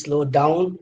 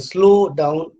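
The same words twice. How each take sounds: First: Slow down with the weight on down; slow down leaning on the second word, down; verb stress. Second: Slow down with a drawn-out, stressed slow; slow down stressed up front on slow, stretched out; noun stress. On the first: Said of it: "it's your verb when it is". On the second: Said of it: "then it is a noun". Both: Shown as a demonstration.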